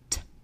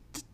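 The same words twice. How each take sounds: First: The t sound is fully released with a puff. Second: The t sound is cut off before release. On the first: "Try to pronounce the T that is in tiger" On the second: "before you make the part of t, stop yourself"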